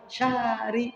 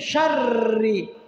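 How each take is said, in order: First: The r sound is short and single. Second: The r sound is held long and doubled. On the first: The speaker calls it wrong. "Kurang itu" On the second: The speaker calls it right. "R-nya dua"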